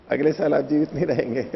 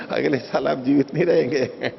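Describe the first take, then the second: First: Said in the usual way. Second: Chuckling through the punchline; amused, laughing aside. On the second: Real, not acted. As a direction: laugh while delivering the joke. Joke about age, laughing.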